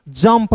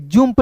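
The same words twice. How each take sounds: First: "जंप" said "jump", with a short uh vowel; correct vowel demo. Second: "जंप" said "joomp", with an oo vowel; "जंप" misread with u as oo; wrong vowel demo. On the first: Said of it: "जंप पढ़ेंगे". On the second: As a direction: put an oo sound in "जंप": joomp. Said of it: "जंप नहीं पढ़ेंगे". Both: Shown as a demonstration.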